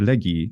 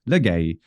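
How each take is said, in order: First: The word ends in an 'ee' sound. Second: The word ends in an 'ay' sound. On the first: The speaker calls it right. "It's lege or legi, depending on the century" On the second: The speaker calls it wrong. "everyone who uses Erasmian thinks that it is a for legay, and it's not"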